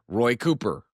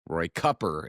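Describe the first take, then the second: First: The surname has its common, everyday pronunciation. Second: The surname has the owner's own pronunciation.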